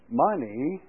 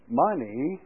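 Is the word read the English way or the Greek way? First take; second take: English; English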